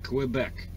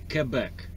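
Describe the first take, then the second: First: Quebec begins with a kw sound, as in quick. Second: Quebec is pronounced in a French-like way. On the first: This follows the spelling. "I use that sound, Que, Quebec" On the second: This is how local people say it. "or as they say, Quebec"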